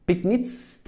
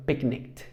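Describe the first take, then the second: First: Picnics ending in a hissed S sound; wrong pronunciation with S. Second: Picnicked ending in a hard K-T; "picnicked", crisp KT ending; correct K pronunciation. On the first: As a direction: end picnics on an S cluster instead of K. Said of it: "no le decimos". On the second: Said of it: "sino picnicked". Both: Shown as a demonstration.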